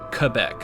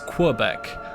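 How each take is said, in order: First: The word begins with a plain K sound. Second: The word begins with a KW sound. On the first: This is how locals say it. "people from Quebec pronounce it Quebec" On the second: This is how others in the country say it. "elsewhere in Canada, it's Quebec"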